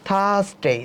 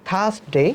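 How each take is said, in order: No difference in how they are said.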